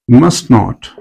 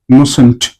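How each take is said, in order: First: It is said as two full separate words. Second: It is said as one contracted word.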